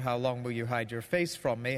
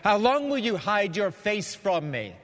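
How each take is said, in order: First: It is read in a mild, non-accusing tone. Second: It is read in an accusing, confrontational tone.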